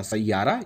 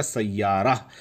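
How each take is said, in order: First: सैयारा ending in a plain long 'aa'; final long aa. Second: सैयारा drawn out slowly, ending in a breathed 'h'; final h sounded. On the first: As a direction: end सैयारा on 'raa', no h. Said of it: "सिर्फ रा पे आ की मात्रा". (सैयारा, अंत में सिर्फ 'आ' की मात्रा) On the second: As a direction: stretch सैयारा to "sayyaa-raah". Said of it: "बहुत से लोग हे निकालते हैं". (सैयारा, धीरे, अंत में 'ह' निकालकर) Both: Shown as a demonstration.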